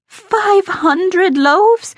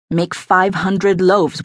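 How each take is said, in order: First: Very high, drawn-out incredulous question; aghast disbelief. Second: Slow, measured command; firm order. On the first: Cook repeating the aldermaston's order back, aghast. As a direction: stretch it out high in astonishment. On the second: Aldermaston instructing his cook to prepare for flood, firm order. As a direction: state the order slowly and evenly. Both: A narrator's reading.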